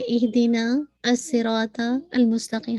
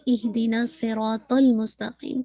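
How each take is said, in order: First: The hamza is pronounced with a glottal stop. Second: The hamza is dropped and the words link. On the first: The speaker calls it wrong. "हम इसको ऐसे नहीं पढ़ते" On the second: The speaker calls it right. "हम पढ़ते"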